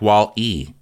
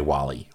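First: There is a short pause between the two parts. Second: The two parts run together without a pause. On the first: "Do you take a pause when you say Wall-E, like" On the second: "Or do you just say"

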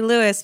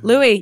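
First: The name ends with an audible S sound. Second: The name ends without any S sound. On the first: The speaker calls it wrong. "he's probably saying his own name wrong" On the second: The speaker calls it right. "silent S"

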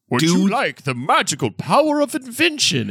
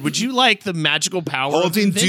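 First: It is said in a put-on old wizard voice. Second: It is said in the speaker's ordinary voice.

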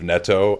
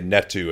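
First: The name ends with a plain 'o' vowel. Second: The name ends with an added 'oo' vowel. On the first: The speaker calls it right. "instead of Netto" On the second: The speaker calls it wrong. "I always say Netto instead of Netto ... I just add a U at the end of his name"

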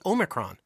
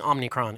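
First: It is said with no n after om. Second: It is said with an n after om. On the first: The speaker calls it right. "It doesn't have an N" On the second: The speaker calls it wrong. "There's not Omni"

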